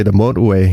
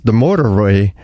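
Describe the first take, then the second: First: "motorway" said the Irish way, letters masked; Irish "motorway", middle sounds softened away; Irish pronunciation. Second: Said in the usual way. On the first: Shown as a demonstration. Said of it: "but in Irish they say". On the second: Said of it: "is the motorway in English".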